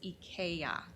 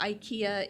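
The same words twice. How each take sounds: First: The name is said the Swedish way. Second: The name is said the American way. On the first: This is the original form of the name. "the actual pronunciation for IKEA is IKEA" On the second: This is the adapted form used locally. "we have Americanized it, and so uh, IKEA is is is what we say"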